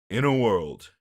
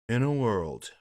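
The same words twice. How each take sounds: First: The deep voice sounds forced and put on. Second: The voice sounds relaxed, like a simple exhale.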